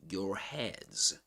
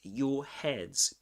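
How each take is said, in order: First: The R at the end of 'your' is pronounced. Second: The R at the end of 'your' is dropped. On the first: "in American English, you'll say your, your heads" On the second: "We don't pronounce the R in in in British English"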